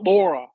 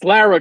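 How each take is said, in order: First: The first vowel sounds like the one in law. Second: The first vowel sounds like the one in car. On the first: The speaker calls it wrong. "not Laura" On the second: The speaker calls it right. "it's Lara, guys and girls"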